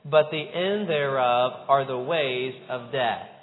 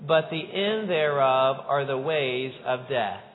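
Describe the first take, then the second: Both takes have the same delivery.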